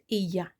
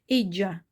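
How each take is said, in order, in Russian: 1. Средний согласный — звук 'y'. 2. Средний согласный — звук 'j'. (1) "а испанцы из Испании произносят эя" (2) "где мексиканцы произносят эджа"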